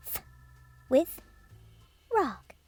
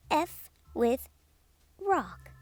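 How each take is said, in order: Both takes have the same delivery.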